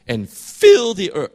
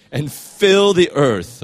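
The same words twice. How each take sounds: First: High, loud line that cracks; real pubescent-style voice crack. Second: Said in the usual way. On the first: Real, not acted. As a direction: voice gives out on a raised, emphatic line. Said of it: "Sorry, my voice". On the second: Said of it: "my voice is getting better".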